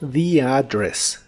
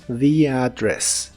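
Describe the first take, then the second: The two takes are said the same way.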